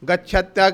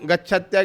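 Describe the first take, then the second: No difference in how they are said.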